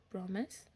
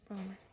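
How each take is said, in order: First: "Promise" as a question. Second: Said in the usual way. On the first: Acted. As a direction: PROMISE with a rising question tune. Asks, then answers the promise.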